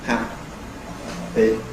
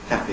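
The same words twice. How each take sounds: First: The word is said slowly, with a longer silence. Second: The word is said at normal speed.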